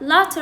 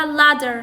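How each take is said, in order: First: Latter with an audible t; clear t. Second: Ladder as the flapped form of latter; quick d tap in ladder; American flap. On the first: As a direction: keep the t in latter untapped. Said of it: "ايش راح يلفظوها". (لفظ latter بتاء مسموعة) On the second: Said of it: "الت راح يلفظوها د". (لفظ ladder بالدال بدل التاء) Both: Shown as a demonstration.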